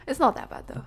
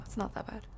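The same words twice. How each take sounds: First: Said in the usual way. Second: Whispered repeat. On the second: Real, not acted. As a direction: say it again under breath.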